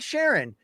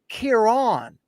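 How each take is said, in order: First: The name begins with an SH sound. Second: The name begins with a K sound. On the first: The speaker calls it wrong. "it's not Sharon" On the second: The speaker calls it right. "It's pronounced Kieran"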